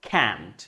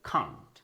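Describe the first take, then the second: First: It has a flat American front vowel. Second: It has a long British back vowel. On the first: "আমেরিকানদের মতো করে বলবেন ক্যান্ট" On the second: "ব্রিটিশদের মতো করে বলতে চান বলবেন খান্ট"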